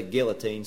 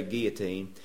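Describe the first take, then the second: First: "guillotine" with the L sounded; hard-L pronunciation. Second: "guillotine" with no L sound; French-style "guillotine", L turned to a y-glide; silent-L pronunciation. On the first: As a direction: say "guillotine" as GILL-uh-teen. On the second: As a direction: say "guillotine" as GEE-uh-teen. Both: Shown as a demonstration. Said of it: "how to pronounce this. Some people say".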